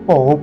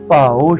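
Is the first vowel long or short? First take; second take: short; long. First: The first vowel is short. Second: The first vowel is long. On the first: The speaker calls it wrong. "ਬਹੁਤਾ ਕਰਕੇ ਭਉ ਪੜਿਆ ਜਾਂਦਾ" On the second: The speaker calls it right. "ਭੱਬੇ ਨੂੰ ਕੰਨਾ"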